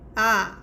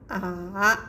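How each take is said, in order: First: The pitch falls sharply. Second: The pitch dips down then rises. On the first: "just go down" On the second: "this car go down, and go up again"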